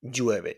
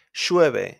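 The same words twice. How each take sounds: First: Llueve with a Y sound at the start; standard Y sound. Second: Llueve with an SH sound at the start; Argentine SH. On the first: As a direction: say llueve the usual way. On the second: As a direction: say Llueve like in Buenos Aires. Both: Shown as a demonstration. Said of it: "instead of llueve".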